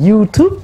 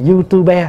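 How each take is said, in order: First: "YouTube" in two syllables, silent final e; American reading. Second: "YouTuber" as three syllables, you-tu-be, final e sounded; letter-by-letter reading. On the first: Monk giving an example to the assembly, American-style "YouTube". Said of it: "Tại mình đọc theo tiếng Mỹ". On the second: Monk contrasting readings for the assembly, spelled-out "YouTuber" as you-tu-be. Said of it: "người ta phiên âm từng chữ". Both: Shown as a demonstration.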